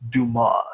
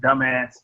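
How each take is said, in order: First: The name sounds like 'doo-mah'. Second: The name sounds like 'dumb ass'. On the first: The speaker is correcting the other person. The speaker calls it right. "it's pronounced Dumas" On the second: The speaker does not know the name's pronunciation. The speaker calls it wrong. "he didn't know how to pronounce it"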